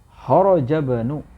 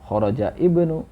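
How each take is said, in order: First: The words link directly with no i sound. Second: A separate i sound begins the second word. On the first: The speaker calls it right. "langsung ya, karena ini hamzah wasl" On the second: The speaker calls it wrong. "bukan kharaja ibnu ya"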